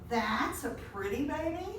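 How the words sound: It is said with a disgusted, dismissive tone. The baby is not pretty. "the same words could mean something totally different with a change in tone"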